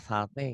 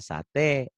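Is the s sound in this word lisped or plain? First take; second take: lisped; plain. First: The s is lisped with the tongue tip. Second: The s is a plain hissing sound. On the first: "kayak orang manja" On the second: "es biasa"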